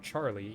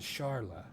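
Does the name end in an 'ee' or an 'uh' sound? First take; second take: ee; uh. First: The name ends in an 'ee' sound. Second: The name ends in an 'uh' sound. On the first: It follows the localized version. "we always called her Charlie" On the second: It follows the original Japanese spelling. "more likely to be pronounced as Charla"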